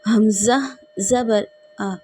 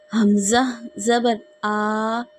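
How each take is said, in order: First: The final vowel is short and evenly said. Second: The final vowel is stretched out long. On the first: The speaker calls it right. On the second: The speaker calls it wrong.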